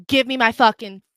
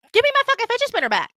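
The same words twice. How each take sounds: First: Louder, near usual pitch; controlled, forceful order; firm angry demand. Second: Very high, fast outburst; rapid high-pitched tirade; furious escalated demand. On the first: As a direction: demand it back, still contained. Acted demand, first take. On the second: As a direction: lose it demanding it back. Acted demand, escalated take. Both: Retold or imitated.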